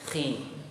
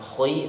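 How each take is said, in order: First: The syllable sounds only slightly heavy. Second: The syllable sounds very heavy and thick. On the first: The speaker calls it right. "tapi khi" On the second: The speaker calls it wrong. "Bukan khi"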